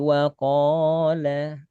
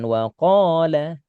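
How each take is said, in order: First: The word is said softly without added stress. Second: The word is said with a forceful stress. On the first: The speaker calls it right. "tapi waqala" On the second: The speaker calls it wrong. "nggak ngasih penekanan, bukan waqala"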